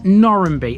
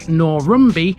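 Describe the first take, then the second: First: The middle syllable is said as 'ran'. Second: The middle syllable is said as 'rum'. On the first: This is how locals say it. "Locals call this Norranby, effectively reversing the A and the M" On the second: This is a local variation. "It even has variations"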